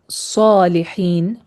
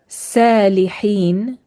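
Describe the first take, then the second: First: It begins with an emphatic, heavy s sound. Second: It begins with a plain, light s sound. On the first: It names the pious person. The speaker calls it right. "instead of" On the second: It names one who defecated. The speaker calls it wrong. "with a sin"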